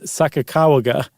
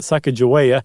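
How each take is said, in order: First: The middle consonant is a G sound. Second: The middle consonant is a J sound. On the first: The speaker calls it right. "it's not J, it's G" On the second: The speaker calls it wrong. "it's not Sacagawea"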